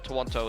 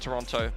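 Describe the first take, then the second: First: The name is said in an alternative way. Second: The name is said in the standard way.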